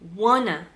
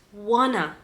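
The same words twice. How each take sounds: First: It is said as one reduced word. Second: The same.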